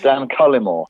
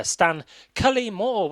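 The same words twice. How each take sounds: First: Stan Cullimore with CUL stressed; plain Cullimore, first syllable stressed. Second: Cully Moore drawn out slowly, Cully stressed and high; slow host intro of the name, sing-song. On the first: Shown as a demonstration. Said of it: "I stress the first syllable". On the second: Real, not acted. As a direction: announce Stan Cully Moore with a lilt. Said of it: "I love the way you say my name".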